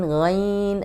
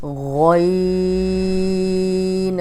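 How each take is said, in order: First: غین said the mistaken way; wrong ghain demo. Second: غین held long and heavy; heavy ghain. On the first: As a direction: show how غین is not read. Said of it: "ایسے نہیں پڑھنا". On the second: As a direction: draw out a thick throaty غین. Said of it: "اب غین کو موٹا پڑھیں گے". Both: Shown as a demonstration.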